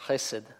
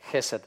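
First: The first sound is made deep in the throat. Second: The first sound is a light Russian kh. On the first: The speaker calls it right. "то есть там вот в глубине гортани" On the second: The speaker calls it wrong. "то есть просто как русское хэ"

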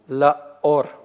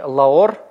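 First: A glottal stop separates the two vowels. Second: The vowels run together without a break. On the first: The speaker calls it right. "после вот такой вот паузы, после смыкания связок" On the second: The speaker calls it wrong. "не Ла-Ор мы прочитаем"

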